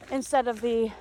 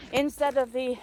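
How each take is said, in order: Both takes have the same delivery.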